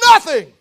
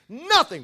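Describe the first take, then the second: First: It is said with strong, passionate fervor. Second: It is said in a plain, calm way.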